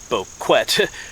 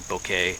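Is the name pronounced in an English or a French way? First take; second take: English; French. First: The name is pronounced the English way. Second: The name is pronounced the French way. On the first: "It sounds like Henry Boquet" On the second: "but it's French, so it's, I guess I'm pretty sure I'm saying it correctly"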